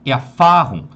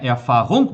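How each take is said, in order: First: The final syllable is reduced and swallowed. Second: The final syllable is fully and separately pronounced. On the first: The speaker calls it right. "mas sim é a farrum" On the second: The speaker calls it wrong. "Não é é a farrongo"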